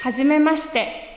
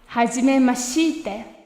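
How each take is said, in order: First: The vowel in the shi syllable is devoiced. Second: The vowel in the shi syllable is fully voiced. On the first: The speaker calls it right. "Here's the correct pronunciation one more time" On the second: The speaker calls it wrong. "Don't pronounce this E sound here. Even though it is written, it sounds a little odd to say"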